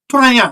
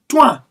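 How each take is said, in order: First: The name rhymes with 'rain', like Twain. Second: The name has a short vowel, like Twan. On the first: The speaker calls it wrong. "He's not Twain" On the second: The speaker calls it right. "No, he's Twan"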